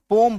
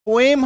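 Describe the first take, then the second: First: पोम with one long o and no e; correct pronunciation. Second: पोएम with a separate e before the m; wrong pronunciation. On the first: Teacher showing students what to say, one-syllable पोम. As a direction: run the o of पोम straight into m. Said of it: "पोम बोलना है". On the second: Teacher showing students what to avoid, two-syllable पोएम. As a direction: split the vowels in पोएम into o and e. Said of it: "पोएम हम लोग नहीं बोलना है". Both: Shown as a demonstration.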